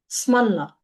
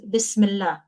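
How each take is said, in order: First: The phrase is shortened, dropping its opening syllable. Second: The phrase is said in full, every syllable kept.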